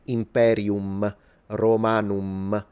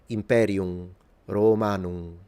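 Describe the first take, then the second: First: The final M is fully pronounced. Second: The final M is dropped and the vowel nasalized. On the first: This is how modern speakers say it. The speaker calls it wrong. "like a modern Italian would or a lot of Anglophones" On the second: This is how the ancient Romans said it. The speaker calls it right. "we know that the Romans nasalized it"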